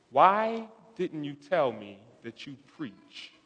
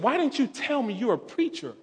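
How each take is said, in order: First: Soft, slow, wounded-sounding question; quietly retold reproach; hushed retold question. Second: Higher, soft voicing of her question; imitated pleading reproach; retold insistent question. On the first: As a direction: imitate her quietly, drawing out "why". Retells woman confronting him. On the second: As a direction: repeat her question higher but still hushed. Repeats her question, more insistent.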